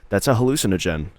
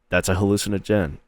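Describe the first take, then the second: First: The word hallucinogen is stressed on the usual syllable. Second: The word hallucinogen is stressed on an unusual syllable. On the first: The speaker calls it right. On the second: The speaker calls it wrong.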